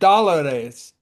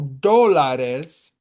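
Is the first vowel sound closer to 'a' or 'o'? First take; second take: a; o. First: The first vowel sounds like an 'a'. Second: The first vowel sounds like an 'o'. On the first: The speaker calls it wrong. "you said that that with an accent" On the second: The speaker calls it right. "it's D O"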